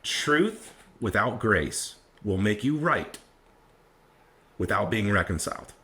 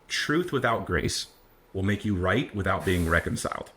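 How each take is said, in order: First: It is said more slowly and deliberately. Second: It is said at a normal, quicker pace.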